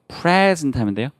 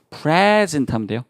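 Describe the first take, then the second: Both takes have the same delivery.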